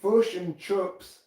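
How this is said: It is said in a New Zealand accent. "New Zealanders say"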